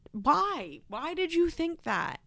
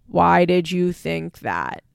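First: High, softer pleading question; baffled disbelief. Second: Loud, slow, emphatic challenge; pointed question. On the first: Host baffled at daughter's hopes, high soft disbelief. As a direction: lift it high, softly incredulous. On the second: Host confronting the absent daughter, loud and deliberate. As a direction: land each word hard and slow. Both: Real, not acted.

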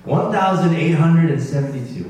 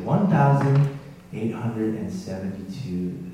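First: Raised, emphatic voice announcing a big figure; loud announcement. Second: Said in the usual way. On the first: Real, not acted. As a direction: call out the total, loud and higher. Announces the total to the room.

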